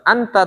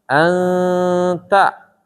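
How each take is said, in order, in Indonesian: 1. Huruf n dibaca jelas. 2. Huruf n disembunyikan dengan dengung. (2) "tapi untuk di tajwid tetap diikhfakan"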